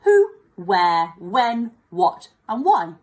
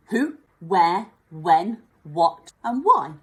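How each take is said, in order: First: Louder, punched list; repeating question words. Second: Each word separate and louder; listing question words. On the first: Teacher repeats question words to help pupils remember, loud. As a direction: chant them again for memory. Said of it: "easy to remember them". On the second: Teacher lists question words for the class, louder. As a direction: count the words out one by one. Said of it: "five key ones". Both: Shown as a demonstration.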